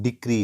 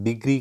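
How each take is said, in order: First: The middle consonant is a voiceless k sound. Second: The middle consonant is a voiced g sound. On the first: The speaker calls it right. "हालांकि ये actual word डिक्री है" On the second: The speaker calls it wrong. "इसको wrongly pronounce करते हैं, डिग्री कहा जाता है"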